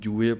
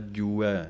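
First: The word ends with a closer 'e' vowel. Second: The word ends with an open 'ai' vowel. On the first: The speaker calls it wrong. "ਅਤੇ ਨਾ ਹੀ ਜੂਏ ਪਾਠ ਪੜ੍ਹਨਾ ਹੈ" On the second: The speaker calls it right. "ਦਲੈਂਕੜਾਂ ਦੀ ਆਵਾਜ਼ ਦੇਣੀ ਹੈ"

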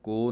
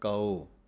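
First: It is said as a single vowel, ko. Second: It is said with two separate vowels, kaa-o. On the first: The speaker calls it wrong. "ਇਹਨੂੰ ਕੋ ਨਹੀਂ ਕਹਿਣਾ" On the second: The speaker calls it right. "ਪਾਠ ਬੋਲਣਾ ਹੈ ਕਾਓ"

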